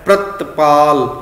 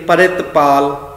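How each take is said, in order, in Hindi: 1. शब्द एक कसे हुए 'pr' संयुक्त व्यंजन से शुरू होता है। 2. शब्द 'pari' से शुरू होता है, जिसमें एक स्वर जुड़ता है। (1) "प्र करके उचारण करना है" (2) "ये गलत उचारण है बिल्कुल"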